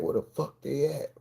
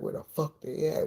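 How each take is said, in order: First: Urgent whisper, no voice; panicked whisper. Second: Panicking. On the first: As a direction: hiss the question out in panic. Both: Retold or imitated. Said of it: "I started panicking".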